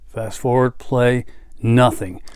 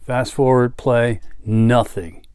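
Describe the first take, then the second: No difference in how they are said.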